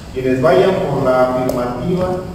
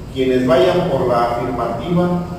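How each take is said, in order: No difference in how they are said.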